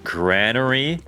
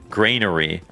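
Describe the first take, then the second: First: The first syllable sounds like gran. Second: The first syllable sounds like grain. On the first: "is that where they make grandmothers?" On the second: "where you would make grains"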